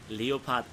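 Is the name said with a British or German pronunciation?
German. The name is said with a German pronunciation. The speaker calls it right. "this is how in German you pronounce the tank's name"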